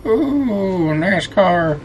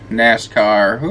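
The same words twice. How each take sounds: First: High delighted "Ooh, nascar"; excited. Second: Said in the usual way. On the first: Shown as a demonstration.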